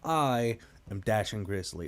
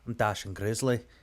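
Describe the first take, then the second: First: It is said in a plain, non-Scottish accent. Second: It is said in a Scottish accent.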